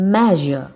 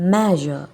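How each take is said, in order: No difference in how they are said.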